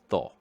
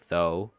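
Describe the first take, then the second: First: The vowel stays pure like a Spanish o. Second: The vowel glides like an English long o. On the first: "but then O in Spanish" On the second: "T H O in English, if you read that, it would probably be like"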